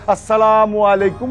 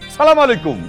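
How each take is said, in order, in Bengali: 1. অভিবাদনটি পুরোপুরি ও যত্ন সহকারে উচ্চারিত হয়েছে। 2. অভিবাদনটি সংক্ষেপে বলা হয়েছে, প্রথম অংশটি বাদ পড়েছে। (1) "শুদ্ধ উচ্চারণ করে দে" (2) "কেমনে দেয় জানো?"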